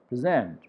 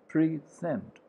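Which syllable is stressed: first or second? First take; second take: second; first. First: The stress is on the second syllable. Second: The stress is on the first syllable. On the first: It is used as a verb. "verb needs the stress on za sound" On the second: It is used as a noun. "pa, ra, and e sound is stress sound"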